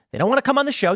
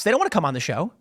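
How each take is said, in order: First: They don't wanna come ON the show, pitched up; first take lifted and pushed; emphatic. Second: Said in the usual way. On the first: Real, not acted. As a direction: lean on ON, higher, scornful. Repeating his claim for emphasis.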